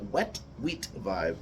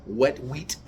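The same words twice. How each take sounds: First: "Wet wheat vibe" drawn out slowly and a bit lower; slowed, savoring. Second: Said in the usual way. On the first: Shown as a demonstration. Repeating his own tasting phrase to the viewers, slow and relishing. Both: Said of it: "how did I say?".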